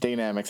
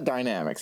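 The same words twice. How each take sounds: First: The first syllable sounds like 'day'. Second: The first syllable sounds like 'die'. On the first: The speaker calls it right. "it's spelled like Dana" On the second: The speaker calls it wrong. "it's not Dynamics"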